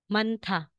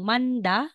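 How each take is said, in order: First: The middle consonant is an aspirated t. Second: The middle consonant is a plain d. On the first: The speaker calls it right. "magiging manta" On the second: The speaker calls it wrong. "instead na sasabihin mong manda"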